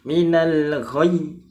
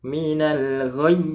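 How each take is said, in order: Both takes have the same delivery.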